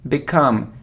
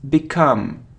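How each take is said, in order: The two takes are said the same way.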